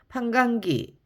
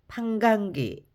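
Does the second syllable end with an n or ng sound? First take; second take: ng; ng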